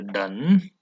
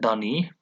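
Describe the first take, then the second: First: The word ends on the n sound. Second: An extra vowel is sounded after the n. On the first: The speaker calls it right. "you say done. The E is silent" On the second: The speaker calls it wrong. "You don't say dunny"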